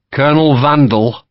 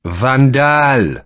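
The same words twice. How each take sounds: First: Vandal said the English way, stress on VAN; English mispronunciation. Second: Vandal said the French way, stress on second syllable DAHL; Van-DAHL, corrected, French accent; French pronunciation. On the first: Sharp naming the colonel, English Vandal. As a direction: Vandal like the word vandal. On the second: Lacroix correcting Sharp, French Van-DAHL. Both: Acted. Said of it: "Lacroix corrected Sharp's pronunciation".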